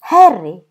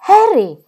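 First: Sharp, loud warning; first loud warning of two; warning call. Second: Higher, louder repeated warning; second warning, higher and more urgent. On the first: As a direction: call his name to stop him. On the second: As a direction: cut him off sharply this time. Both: A narrator's reading. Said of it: "lo mise in guardia Caroline".

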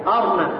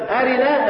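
First: أرنا said "arna", no vowel after the r; أرنا in two syllables, ar-na; sukun on the ra. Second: أرنا said "arina", with a short i after the r; أرنا in three syllables, a-ri-na; full kasra on the ra. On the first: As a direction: close the r straight onto the n in أرنا. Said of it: "يعني سكن الكسر". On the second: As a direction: keep the short vowel i in أرنا. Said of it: "ساكن الكسر". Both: Shown as a demonstration.

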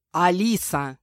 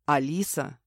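First: A sharp, louder bark of her name; angry growl of the name. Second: Name said softly and lower; a quiet, tender calling of her name; soft, gentle. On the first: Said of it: "рыкнул Мирон". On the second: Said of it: "наконец мягко произнёс он". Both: A narrator's reading.

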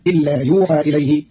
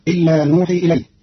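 First: يوحى said yuuhaa; يوحى with ya and a long aa; Qalun reading. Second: نوحي with nun; نوحي said nuuhii; standard reading. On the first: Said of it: "فتصير". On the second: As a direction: start نوحي with n. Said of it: "بياء بدل النون". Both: Shown as a demonstration.

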